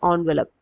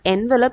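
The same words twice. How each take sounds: First: The first syllable sounds like 'on'. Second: The first syllable sounds like 'en'. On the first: The speaker calls it right. "it is envelope" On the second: The speaker calls it wrong. "It's not envelope"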